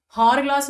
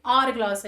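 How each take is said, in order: First: हार ग्लास with a voiced h at the start; wrong h sound. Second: आवर ग्लास starting on an open A, no h; आवर ग्लास with silent h. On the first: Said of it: "आवर ग्लास है यहाँ पे". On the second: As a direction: begin आवर ग्लास straight on the vowel. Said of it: "आ sound आ रहा है". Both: Shown as a demonstration.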